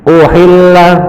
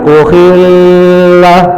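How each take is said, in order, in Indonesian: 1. Konsonan ganda itu hanya ditahan sebentar. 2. Konsonan ganda itu ditahan terlalu lama. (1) "baca tasjid itu jangan terlalu panjang jedahnya" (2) "jangan uhilla. Nah itu sampai lebih dari satu alif, itu salah bacanya"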